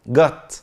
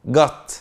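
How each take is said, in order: No difference in how they are said.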